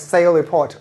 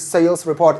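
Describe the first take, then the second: First: The final s of sales is left out. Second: The final s of sales is clearly sounded. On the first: The speaker calls it wrong. "pronounce it like sale report without S" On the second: The speaker calls it right. "it must be sales report"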